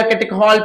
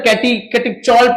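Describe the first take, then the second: First: "catechol" as kate-khol, with a hard kh; "catechol" ending in khol, not chol; hard K pronunciation. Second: "catechol" as kati-chol, with ch as in chair; "catechol" ending in chol, not khol; CH pronunciation. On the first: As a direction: say "catechol" with kh in place of ch. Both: Shown as a demonstration. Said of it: "catechol पढ़ो या catechol पढ़ो".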